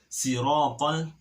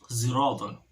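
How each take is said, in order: First: The first consonant is a plain s. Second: The first consonant sounds like a z. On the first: "bukan shad tapi si si sin"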